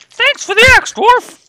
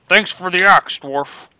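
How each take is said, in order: First: It is said in a put-on halfling voice. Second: It is said in a plain, normal voice.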